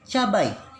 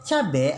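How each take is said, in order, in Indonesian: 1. Kata itu berakhir dengan bunyi ai. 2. Kata itu berakhir dengan bunyi e. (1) "Kata bakunya adalah cabai" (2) "cabe adalah kata tidak baku"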